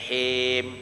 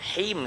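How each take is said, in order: First: The syllable is stretched out longer than one count. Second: The syllable is held for one short count. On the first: The speaker calls it wrong. "Jangan him" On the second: The speaker calls it right. "Him satu"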